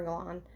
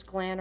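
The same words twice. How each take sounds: First: Glan with a broad "ah", like "Glahn"; tentative "Glan", open AH vowel; alternative name pronunciation. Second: Glan with a short A, as in "plan"; tentative "Glan", flat A vowel; unsure name pronunciation. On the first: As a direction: say "Glan" to rhyme with "lawn". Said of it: "I don't know if it's Glan or Glan". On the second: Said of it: "I hope I said that right". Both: Shown as a demonstration.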